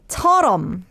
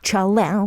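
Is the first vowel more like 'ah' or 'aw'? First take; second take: aw; ah. First: It is said with Korean rounded 'o' vowels. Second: It is said with English-like open 'a' vowels. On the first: This is the usual everyday pronunciation. The speaker calls it right. "how do we usually say it then in Korean?" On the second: This is the stylized song pronunciation. The speaker calls it wrong. "pronouncing Korean songs as all English"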